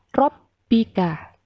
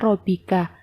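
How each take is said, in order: First: The b is doubled and pressed. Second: The b is said as a single sound. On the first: The speaker calls it right. "tetapi dibaca robbika" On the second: The speaker calls it wrong. "bukan dibaca robika"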